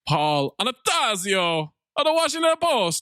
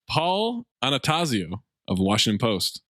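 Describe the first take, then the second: First: It is read with flourish in a put-on accent. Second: It is read plainly in a normal voice.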